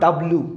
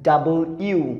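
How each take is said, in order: First: It is squeezed into two syllables. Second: It is said in three full syllables. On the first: The speaker calls it wrong. "This is not ডাব্লু" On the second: The speaker calls it right. "এটার উচ্চারণ হচ্ছে ডাবল ইউ"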